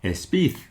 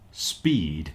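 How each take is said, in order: First: A vowel is added before the s. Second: The word begins directly with the s. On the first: The speaker calls it wrong. "You might say espid" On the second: The speaker calls it right. "which is not speed"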